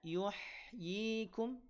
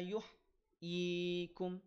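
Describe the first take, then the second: First: The h sound flows smoothly without a break. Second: The h sound is jerked and cut off abruptly. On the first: The speaker calls it right. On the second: The speaker calls it wrong. "tetapi dibaca"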